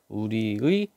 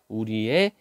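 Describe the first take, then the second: First: The last vowel is the diphthong 'ui'. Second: The last vowel is the plain vowel 'e'. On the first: "원래는 우리의로 발음하는 게 원칙이지만" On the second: "애로 발음하는 것도 허용하죠"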